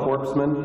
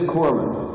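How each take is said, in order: First: The p-s sound in the middle is pronounced. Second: The p-s sound in the middle is silent. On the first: The speaker calls it wrong. "it's not very good for a guy delivering first aid to be called a corpseman" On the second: The speaker calls it right. "You don't pronounce the S"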